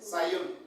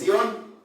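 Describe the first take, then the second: First: The name is pronounced the English way. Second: The name is pronounced the Spanish way. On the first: "así se pronuncia en inglés" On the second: "en español pues es"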